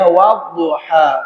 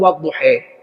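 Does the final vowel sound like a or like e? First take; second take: a; e. First: The final vowel is an open a. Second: The final vowel is tilted toward e. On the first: "A'u bukan e" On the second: "qiraat Imam Nafi'"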